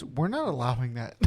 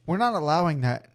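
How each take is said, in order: First: Laughing through it. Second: Said in the usual way. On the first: Retold or imitated. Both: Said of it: "M L B front office steps in and goes".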